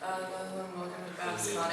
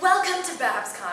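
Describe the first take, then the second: First: It is said flatly, without projection. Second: It is said projected and enthusiastic.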